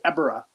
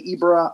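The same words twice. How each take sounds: First: Ebirah said as EH-bi-rah, short e at the start; the other pronunciation of Ebirah. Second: Ebirah said as EE-bi-rah, long ee at the start; one pronunciation of Ebirah. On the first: The general answers with his own Ebirah, EH-bi-rah. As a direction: Ebirah with EH, stressed first syllable. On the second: The general mocks the two ways to say Ebirah, EE-bi-rah. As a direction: Ebirah with EE, stressed first syllable. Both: Shown as a demonstration. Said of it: "Let's call the whole thing off".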